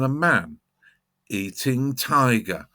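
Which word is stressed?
eating. The stress falls on eating.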